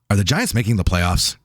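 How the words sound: It is asked in a serious, straight tone.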